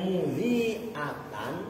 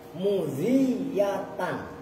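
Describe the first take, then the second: First: A glottal stop comes before the final syllables. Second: A doubled y-sound comes before the final syllables. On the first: "pakai hamzah" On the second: "ditasdid yaknya"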